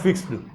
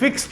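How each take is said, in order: First: The ending of 'fixed' sounds like d. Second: The ending of 'fixed' sounds like t. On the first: The speaker calls it wrong. "Not" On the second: The speaker calls it right. "X के बाद में"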